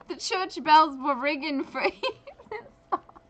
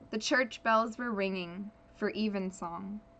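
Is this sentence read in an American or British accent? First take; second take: British; American. First: It is read in a put-on British accent. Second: It is read in the reader's ordinary accent.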